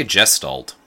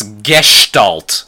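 First: Gestalt said as "jest-alt"; soft G. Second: Gestalt drawn out as "gesh-talt"; slow Gestalt with hard G and a "sh" before the t; German-style hard G. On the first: Host giving their own pronunciation, gestalt with soft G. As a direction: start gestalt with a J sound. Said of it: "I say gestalt". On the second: Host reporting the looked-up pronunciation, hard-G Gestalt with "sh". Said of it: "That's worse". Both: Shown as a demonstration.

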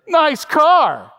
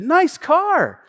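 First: Exaggerated, loud, high-pitched sneer; hammed-up sarcastic compliment; mocking compliment. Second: Higher-pitched friendly compliment, imitated; acting out an innocent compliment; sincere compliment. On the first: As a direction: mimic a snide "Nice car". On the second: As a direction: say "Nice car" as if truly meant. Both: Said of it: "I don't think he said it like that".

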